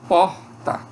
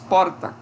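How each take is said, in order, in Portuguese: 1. O R é forte e áspero. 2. O R é um toque rápido e simples. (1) "como R de carro, R forte" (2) "é comum surgir aqui um T E P propriamente"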